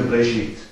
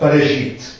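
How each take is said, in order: First: There is no vowel at all after the B. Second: The vowel after the B is short and fleeting. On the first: "Manche Hebräer sagen dann wirklich nur Bereshit. Also dann ist es überhaupt ganz stumm" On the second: "sondern Bereshit"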